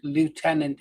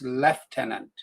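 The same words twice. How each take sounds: First: The word is pronounced the American way. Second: The word is pronounced the British way. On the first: "is the American way of saying it" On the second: "It's lieutenant"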